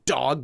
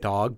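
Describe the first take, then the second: First: The first consonant is a hard D. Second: The first consonant is a softer D. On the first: "you're not saying dog" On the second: "make the sound a little softer"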